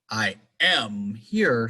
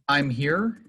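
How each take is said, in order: First: The verb is said in full and strong. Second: The verb is contracted and weak. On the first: The speaker is arguing. "sounds like I'm arguing with you" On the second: It is a neutral statement. "am, the linking verb from to be, is not really that strong"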